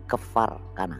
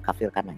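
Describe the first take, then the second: First: The first word sounds like kefar. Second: The first word sounds like kafir. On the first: The speaker calls it right. "Ini namanya Kefar Kana" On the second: The speaker calls it wrong. "bukan kafir kana ya"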